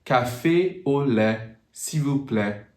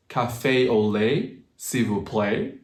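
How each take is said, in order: First: CAFÉ AU LAIT, S'IL VOUS PLAÎT with pure French vowels; "café au lait, s'il vous plaît", no glides, LAIT and PLAÎT ending EH; French IPA pronunciation. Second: Slow CAFÉ AU LAIT, S'IL VOUS PLAÎT with English gliding vowels; anglicized "café au lait, s'il vous plaît", endings gliding to AY; English pronunciation. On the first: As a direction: model the French order with short steady vowels. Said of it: "use the I P A and pronounce it". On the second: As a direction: say the French order with English vowels. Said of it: "in English pronunciation". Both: Shown as a demonstration.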